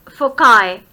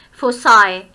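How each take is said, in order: First: Foci in British English, said FOH-kye with a hard k; British pronunciation. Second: Foci spoken the American way, FOH-sye with an s-sound instead of k; American pronunciation. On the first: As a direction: foci spoken the British way, FOH-kye ending in a k-sound and "eye". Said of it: "In British English, we pronounce its plural as". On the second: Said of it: "but in American English ... pronounced as foci". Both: Shown as a demonstration.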